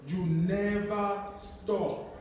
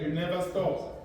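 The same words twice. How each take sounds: First: "You never stop", drawn out slowly with weight on "never"; deliberate, spaced-out "You never stop", long on "never"; slow emphatic repeat. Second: Said in the usual way. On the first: Real, not acted. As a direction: stretch "never", then let "stop" fall.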